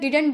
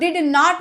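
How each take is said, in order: First: It is said as one contracted word. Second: It is said as two full separate words. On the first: The speaker calls it right. "डिडंट बोलिएगा" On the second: The speaker calls it wrong. "डिड नॉट मत बोलिएगा"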